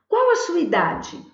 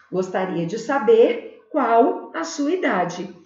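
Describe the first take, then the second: First: "Qual" alto e subindo, tom de pergunta direta; entonação de pergunta. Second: "qual a sua idade" dito devagar, tom de afirmação caindo no fim; sem entonação de pergunta. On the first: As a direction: pergunte "Qual a sua idade?" com entonação interrogativa clara. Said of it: "Na entonação, na fala". (pergunta direta com entonação de pergunta) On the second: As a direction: diga como frase declarativa, sem subir no final. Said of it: "eu não vou fazer a entonação de pergunta mais". (pergunta indireta dita sem tom interrogativo) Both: Shown as a demonstration.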